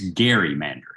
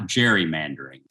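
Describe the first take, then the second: First: The word begins with a hard g sound. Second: The word begins with a soft j sound. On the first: The speaker calls it right. "It's gerrymandering. Elbridge Gerry" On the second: The speaker calls it wrong. "it is not gerrymandering"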